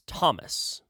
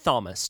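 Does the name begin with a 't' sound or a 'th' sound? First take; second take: t; th. First: The name begins with a plain 't' sound. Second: The name begins with a 'th' sound. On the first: The speaker calls it right. "It's Thomas" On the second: The speaker calls it wrong. "you don't say Thomas, do you?"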